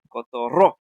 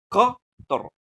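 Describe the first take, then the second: First: The stress is on the last syllable. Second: The stress is on the first syllable. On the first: "Así dirías si fuera la última. Obviamente está mal" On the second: "en la co es donde tiene que recaer lo más fuerte"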